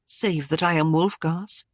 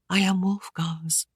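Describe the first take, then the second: First: Said in the usual way. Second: Low whisper. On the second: Acted. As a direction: breathe it out, barely there. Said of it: "she said low".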